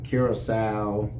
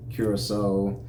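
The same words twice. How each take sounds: First: Curacao ending in "sow", rhyming with cow; wrong pronunciation. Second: Curacao ending in a long "so"; correct pronunciation. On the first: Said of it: "always said it wrong". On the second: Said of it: "the correct pronunciation is Curacao". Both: Shown as a demonstration.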